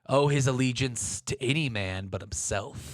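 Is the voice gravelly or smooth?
smooth. Murtagh's voice is smooth, not gravelly.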